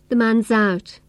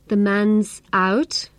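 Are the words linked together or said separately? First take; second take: linked; separately. First: The s sound runs straight into the vowel. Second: The words are separated with pauses between them. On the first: The speaker calls it right. "I link the consonant sound s to the following vowel sound" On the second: The speaker calls it wrong. "I don't say"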